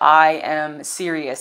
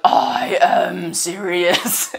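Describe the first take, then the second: First: It is said in a normal voice. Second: It is said in a gravelly voice.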